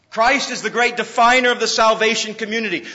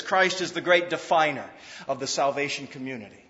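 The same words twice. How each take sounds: First: Repeated loud and high; full preacher's voice; preaching emphasis. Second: Said in the usual way. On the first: Shown as a demonstration. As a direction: proclaim it this time. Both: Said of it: "repeated louder".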